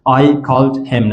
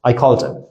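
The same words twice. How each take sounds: First: Each word is said separately, with the h sounded. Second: The h is dropped and the words run together. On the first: The speaker calls it wrong. "I called him نمیگین" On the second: The speaker calls it right. "پس میگین I called him"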